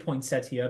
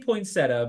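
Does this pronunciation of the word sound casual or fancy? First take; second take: fancy; casual. First: The word is said in a fancy-sounding way. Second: The word is said in a plain, casual way. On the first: "I should say poinsettia because that sounds very fancy" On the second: "I say poinsettia because I don't know"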